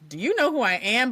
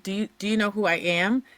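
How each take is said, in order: First: It is said in an arrogant, entitled tone. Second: It is asked as a sincere, humble question.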